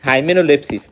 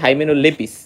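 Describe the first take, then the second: First: The name has an extra s: lepsis. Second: The name has no extra s: lepis. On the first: The speaker calls it wrong. "এই নানাজি নানাজিকে আমি ভুল উচ্চারণ করতাম" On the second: The speaker calls it right. "এটা কিন্তু হাইমেনোলেপিস"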